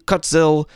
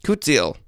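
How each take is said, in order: First: Kutzil said as "CUTS-il"; mispronounced Kutzil. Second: Kutzil said as "koot-ZEEL"; corrected pronunciation. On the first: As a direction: say Kutzil with a short "cuts" first syllable. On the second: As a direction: repeat Kutzil carefully with long oo and ee. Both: Real, not acted. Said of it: "that card is pronounced Kutzil".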